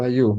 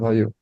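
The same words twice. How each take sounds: First: The y sound in the middle is clearly pronounced. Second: The y sound in the middle is swallowed. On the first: The speaker calls it right. "make sure hayu" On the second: The speaker calls it wrong. "not hayu"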